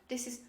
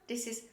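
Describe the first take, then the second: No difference in how they are said.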